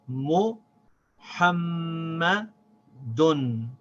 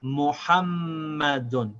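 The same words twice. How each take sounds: First: MUHAMMADUN very slow, paused between mu, hamma, dun; syllable by syllable. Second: MUHAMMADUN joined in one slow piece, long m; smooth reading. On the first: Teacher reading it again, in separated syllables. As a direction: break MUHAMMADUN into parts, long held m. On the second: Teacher reading the whole word, smoothly. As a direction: glide through MUHAMMADUN without pauses. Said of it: "Let's read it smoothly". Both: Shown as a demonstration.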